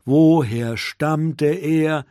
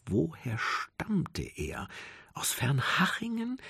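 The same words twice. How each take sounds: First: Slow and louder, weighing each word; slow pressured wondering. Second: Slow, soft self-questioning; slow anxious wondering. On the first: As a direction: press the question slowly and firmly. Rumo asks himself again, pressured. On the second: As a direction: ponder it slowly under the breath. Rumo anxiously asks himself. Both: A narrator's reading.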